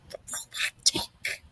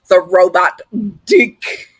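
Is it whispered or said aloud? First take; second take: whispered; aloud. First: It is whispered quietly. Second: It is said aloud, louder.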